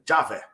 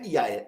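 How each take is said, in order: First: The name begins with a J sound. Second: The name begins with a Y sound. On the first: The speaker calls it right. "a pronúncia antiga era Já, né? Então fica Javé" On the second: The speaker calls it wrong. "Só que não é Iaé"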